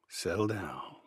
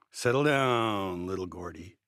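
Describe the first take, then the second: First: Said in the usual way. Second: Chuckling. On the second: A narrator's reading. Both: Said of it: "he chuckled".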